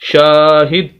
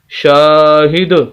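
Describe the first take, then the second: First: The final d stops abruptly with no echo. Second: The final d bounces with a slight echo. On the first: The speaker calls it wrong. "अगर हम इसको वैसी आवाज़ को रोक दें तो फिर हम पढ़ेंगे शाहिद, तो ये गलत हो जाएगा" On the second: The speaker calls it right. "जब हम कलकला करेंगे दाल के ऊपर तो फिर होगा शाहिद"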